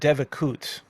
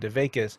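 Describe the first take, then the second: First: It is said with a non-Yiddish pronunciation. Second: It is said with a Yiddish pronunciation.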